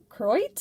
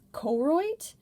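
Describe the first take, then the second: First: The first vowel is skipped over. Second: The first vowel is fully pronounced. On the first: "they kind of skip over the O" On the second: "I haven't been pronouncing it Koroit"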